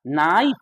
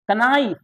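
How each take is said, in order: First: नाइफ said slowly with no k sound; silent k. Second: Knife said as कनाइफ with the k sounded; wrong spelled-out k. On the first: Teacher modelling the correct silent-k नाइफ. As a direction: stretch out नाइफ, starting straight on the n. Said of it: "नाइफ चाकू". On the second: Teacher mocking the common wrong कनाइफ. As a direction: pronounce कनाइफ with a hard k before n. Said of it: "जबकि हम लोग बोलते हैं". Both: Shown as a demonstration.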